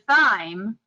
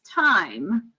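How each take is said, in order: First: The word begins with a TH sound. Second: The word begins with a plain T sound. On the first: "when we see that th together, we want the sound" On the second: "I have only ever heard it pronounced as time"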